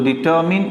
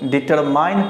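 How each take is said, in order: First: The last syllable has a short 'i' vowel. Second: The last syllable has a long 'ai' vowel. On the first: The speaker calls it right. "डिटरमिन इसका correct उच्चारण होता है" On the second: The speaker calls it wrong. "जब आप इसे डिटरमाइन पढ़ते हैं तो गलत हो जाता है"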